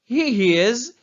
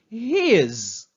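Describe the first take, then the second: First: Two separate full words are said. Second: The words are shortened into one syllable.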